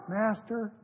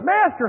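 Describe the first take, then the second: First: The word is said flatly, without urgency. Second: The word is said with intense, pleading urgency. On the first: The plea is half-hearted. "They weren't just" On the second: The plea is desperate and sincere. "They were pretty fervent"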